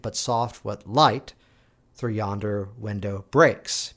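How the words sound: Only one main and one secondary stress. The speaker calls it right. "there's one primary and one secondary"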